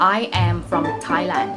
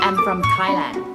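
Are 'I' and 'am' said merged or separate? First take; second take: separate; merged. First: I and am are said as separate words. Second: I and am are merged into one syllable.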